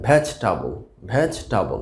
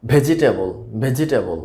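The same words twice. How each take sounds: First: ভেজটাবল in three beats, "VEJ-ta-bol"; correct pronunciation. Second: ভেজিটেবল in four beats, "ve-ji-tay-bol"; common mispronunciation. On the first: Teacher models the word for learners, correctly pronounced. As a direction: drop the middle vowel in ভেজটাবল, "vej-tabol". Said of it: "সঠিক উচ্চারণটা আসলে হবে". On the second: Teacher shows learners the common mistake, mispronounced. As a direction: say ভেজিটেবল with a full "ji-tay" in the middle. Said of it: "তো আমরা উচ্চারণ করে থাকি". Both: Shown as a demonstration.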